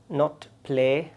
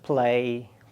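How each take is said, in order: First: The vowel is one steady sound. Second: The vowel glides as a diphthong. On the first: The speaker calls it wrong. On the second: The speaker calls it right. "rather play"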